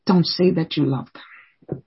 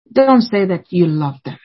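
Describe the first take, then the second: First: Softer, slower repeat. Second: Said in the usual way. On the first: Shown as a demonstration. Preacher repeats the warning to parents, softer and slower. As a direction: drop the voice and slow down on "Don't say that you love them".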